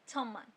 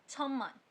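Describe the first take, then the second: Both takes have the same delivery.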